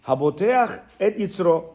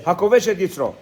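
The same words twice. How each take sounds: First: "haboteach et yitzro" read haltingly, with "haboteach" as the misread word; unsure Hebrew reading. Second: "hakovesh et yitzro" with the stress on "hakovesh" and a clear v-sh in kovesh; corrected Hebrew. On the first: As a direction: sound out "haboteach et yitzro" like someone who can't read Hebrew. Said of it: "Am I saying it right?". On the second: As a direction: say "hakovesh et yitzro" firmly, as the fixed version. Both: Shown as a demonstration.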